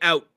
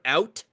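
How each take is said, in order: First: The word is said fast with the T dropped. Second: The word is said carefully with its final T. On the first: "if you get a Canadian going fast enough, he'll just say out" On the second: "So we say the word out"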